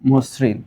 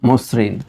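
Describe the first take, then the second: First: The first vowel is the open 'aw' sound. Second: The first vowel is the rounded 'o' sound. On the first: The speaker calls it wrong. "সুতরাং এটা হবে মসৃণ" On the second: The speaker calls it right. "Sorry এটা হবে মসৃণ"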